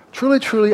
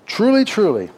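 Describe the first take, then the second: First: "truly, truly" pitched much higher and louder, falling hard; stronger emphasis. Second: "Truly, truly" said higher and louder, falling; emphatic repetition. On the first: Preacher to congregation, repeating "truly, truly" with more force. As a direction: hit "truly, truly" even harder. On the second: Preacher to congregation, hammering "Truly, truly". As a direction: ring out "Truly, truly" to grab attention. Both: Shown as a demonstration. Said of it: "listen up".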